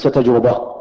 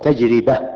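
First: The r is followed by a u vowel. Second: The r is followed by an i vowel. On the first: The speaker calls it wrong. "وليس تجربة بضم الراء" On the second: The speaker calls it right. "تنطق بكسر الراء"

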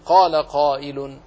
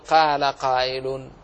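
First: The q sounds are heavy and emphatic. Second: The q sounds are light and thin. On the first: The speaker calls it right. "فقل قال قائل" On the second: The speaker calls it wrong. "ولا تقل قال قائل"

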